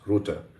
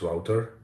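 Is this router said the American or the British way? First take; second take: British; American. First: It is said with a British English pronunciation. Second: It is said with an American English pronunciation. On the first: "in British English it's router" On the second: "in American English it's router"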